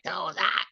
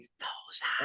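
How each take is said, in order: First: It is said in full, non-whispered voice. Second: It is said in a whisper.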